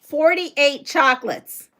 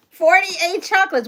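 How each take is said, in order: First: Said in the usual way. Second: Higher, louder Forty-eight chocolates; stunned at the count; amazed. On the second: Real, not acted. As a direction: repeat it in disbelief.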